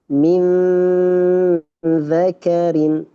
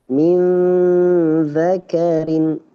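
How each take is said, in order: Both takes have the same delivery.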